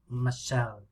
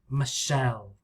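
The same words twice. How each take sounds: First: The stress is on the second syllable. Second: The stress is on the second syllable.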